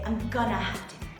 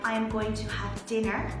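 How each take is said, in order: First: 'Going to' is reduced to 'gonna'. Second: 'Going to' is said in full. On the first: "I say I'm gonna have dinner" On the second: "instead of saying"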